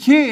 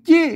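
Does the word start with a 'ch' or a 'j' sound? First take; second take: ch; j. First: The word starts with an aspirated 'ch' sound. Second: The word starts with an unaspirated 'j' sound. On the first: This is the standard Thai reading. The speaker calls it wrong. "ไม่ใช่ชี้ นั่นมันไทย" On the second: This is the local Lanna reading. The speaker calls it right. "อ่านว่าจี้"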